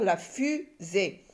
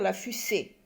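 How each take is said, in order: First: The middle consonant is a buzzing Z sound. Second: The middle consonant is a hissing S sound. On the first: The speaker calls it right. "Le S se lit Z" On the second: The speaker calls it wrong. "si je mets deux S, je vais dire la fusée"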